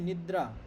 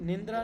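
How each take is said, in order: First: No n sound comes before dra. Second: An extra n sound comes before dra. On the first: The speaker calls it right. "Sanskrit में" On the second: The speaker calls it wrong. "નિંદ્રા नहीं"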